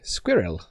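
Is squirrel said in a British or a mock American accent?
British. Squirrel is said in a natural British accent. This is how British people normally say it. "British people say more like squirrel"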